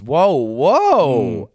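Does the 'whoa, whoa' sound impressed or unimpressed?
impressed. It sounds impressed and positive. The reaction is a good one. The speaker calls it right. "Which means good. You've got to say it in a certain way"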